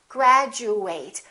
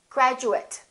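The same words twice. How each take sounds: First: The last syllable sounds like eight. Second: The last syllable sounds like it. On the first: It is used as a verb. "If it's a verb, we fully pronounce eight" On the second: It is used as a noun or adjective. "if it's an adjective or a noun, then this is reduced"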